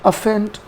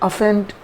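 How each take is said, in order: Both takes have the same delivery.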